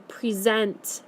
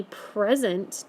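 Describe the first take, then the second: First: First "present" said pre-ZENT; stress on second syllable. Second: Second "present" said PREZ-ent; stress on first syllable. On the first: Teacher giving an example sentence, verb stressed pre-ZENT. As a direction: verb "present" as pree-ZENT, weight on the ending. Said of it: "Present means to stand up". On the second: Teacher giving an example sentence, noun stressed PREZ-ent. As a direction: noun "present" as PREZ-unt, weight up front. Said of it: "if I give you the sentence". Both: Shown as a demonstration.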